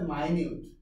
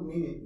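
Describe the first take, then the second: First: It begins with 'my', ending in 'newt'. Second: It begins with 'min', like the time unit. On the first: It means very small or fine. The speaker calls it right. "এটার উচ্চারণ হচ্ছে মাইনিউট" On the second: It names a unit of time. The speaker calls it wrong. "এটার উচ্চারণ কিন্তু মিনিট না"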